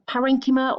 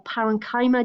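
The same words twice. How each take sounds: First: Parenchyma as puh-RENG-kih-muh; first pronunciation variant. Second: Parenchyma as pa-ren-KAI-muh; alternative pronunciation. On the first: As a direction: stress the REN in parenchyma, short "ki". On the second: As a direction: say parenchyma with a long "eye" in KY. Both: Shown as a demonstration. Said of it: "depending on how you pronounce it".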